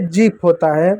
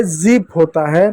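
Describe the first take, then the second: First: जीप with a hard J, "jeep"; J sound. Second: जीप with a buzzing Z, "zeep"; Z sound. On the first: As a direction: start जीप on a J, tongue stop first. (जीप को सख़्त ज से बोलें) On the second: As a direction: start जीप on Z, as in zip. (जीप को Z वाले ज़ से बोलें) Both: Shown as a demonstration. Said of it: "ज और ज में अंतर".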